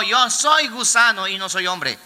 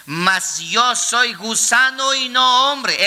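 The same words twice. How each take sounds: First: Said in the usual way. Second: Drawn out slowly, NO stressed; slow solemn quote. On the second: Shown as a demonstration. Pastor quoting Christ's words to the church, slow and solemn. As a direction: read "Mas yo soy gusano y no hombre" slowly, leaning on "no". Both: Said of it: "El Cristo de la gloria mencionó".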